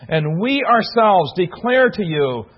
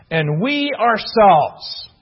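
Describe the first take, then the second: First: Slow with the weight on "we ourselves" and "declare"; emphatic we ourselves. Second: Slow, weighty stress on "we" and "ourselves"; emphatic we ourselves. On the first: Preacher reading the literal translation to listeners, slow and emphatic. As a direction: read it slowly, pressing "we ourselves". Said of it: "it is very emphatic". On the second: Preacher stressing "we ourselves" to the congregation, slow and emphatic. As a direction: lean hard on "we ourselves" slowly. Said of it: "in the original is very emphatic". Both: Shown as a demonstration.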